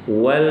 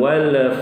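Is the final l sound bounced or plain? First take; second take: plain; bounced. First: The final l ends plainly without an echo. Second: The final l ends with a bouncing echo. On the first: The speaker calls it right. "tidak boleh qalqalah, wal wal begitu" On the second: The speaker calls it wrong. "bukan wal fathu"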